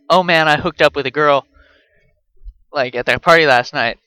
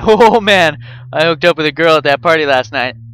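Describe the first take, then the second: First: The voice is flat and expressionless throughout. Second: The voice is animated with lively pitch movement. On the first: The speaker calls it wrong. "normally you wouldn't say it as deadpan as I am" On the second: The speaker calls it right. "You would say something a little more like"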